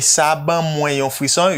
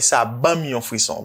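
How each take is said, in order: First: The word for 'me' is said in full as 'mwen'. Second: The word for 'me' is shortened to a bare 'm'. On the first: "You say sa ban mwen yon frisson" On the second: "you just say"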